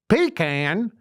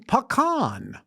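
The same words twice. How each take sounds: First: The first syllable sounds like 'pee'. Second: The first syllable does not sound like 'pee'. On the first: "What the hell is that? Something you piss in?" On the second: "You mean pecan"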